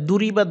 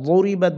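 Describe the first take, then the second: First: The first consonant is a plain d sound. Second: The first consonant is a heavy emphatic dad. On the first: The speaker calls it wrong. "এটা দুরিবাত বলা যাবে না" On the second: The speaker calls it right. "এটা ضربت বলতে হবে, অর্থাৎ জিহ্বার গোড়া দিয়ে উচ্চারণ করতে হবে"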